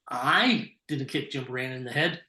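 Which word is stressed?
I. The word "I" carries the main stress. Someone else did it. "someone else did"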